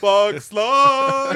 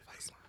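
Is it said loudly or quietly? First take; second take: loudly; quietly. First: It is shouted loudly and proudly. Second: It is muttered quietly under the breath.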